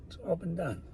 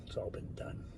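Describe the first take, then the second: First: Said in the usual way. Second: Breathy whisper, barely voiced. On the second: Real, not acted. Rambling to camera, he whispers it to himself. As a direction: let it slip out as a hushed whisper.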